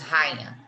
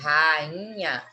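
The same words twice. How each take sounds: First: The 'ai' is said together as one syllable. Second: The 'a' and 'i' are said as separate syllables. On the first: The speaker calls it wrong. "Nós não falamos rainha" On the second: The speaker calls it right. "o I ele fica sozinho"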